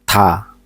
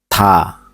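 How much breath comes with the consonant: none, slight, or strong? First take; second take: slight; slight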